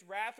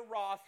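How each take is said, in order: First: Said in the usual way. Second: "wrath" said British-style, like "roth"; British "wrath", rhyming with "cloth"; British pronunciation. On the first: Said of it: "Doesn't matter if it's wrath or wrath". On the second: Shown as a demonstration. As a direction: say "wrath" with a rounded "aw" vowel. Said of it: "if we were British, we'd say wrath".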